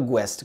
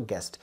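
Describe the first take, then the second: First: "ग्वेस्ट" with a w glide after the g; wrong, U sounded. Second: "गेस्ट" with a hard g straight into e; lower, softer "गेस्ट", U left silent; correct, silent U. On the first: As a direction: say "ग्वेस्ट" as gwest. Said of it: "नहीं बोलते हो ग्वेस्ट करके". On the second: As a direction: say "गेस्ट" as gest, no w. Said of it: "आप क्या बोलते हो". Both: Shown as a demonstration.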